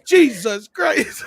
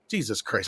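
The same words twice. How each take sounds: First: High, drawn-out exasperated outburst; Casey Kasem going off. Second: Low, soft muttered exasperation; Casey Kasem starting cool. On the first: Radio host cursing his crew, mock exasperation. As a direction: imitate a host at the end of his rope. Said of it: "just going the fuck off". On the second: Radio host starting to lose patience, quiet exasperation. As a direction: imitate a host still holding it in. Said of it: "started out all cool and shit". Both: Retold or imitated.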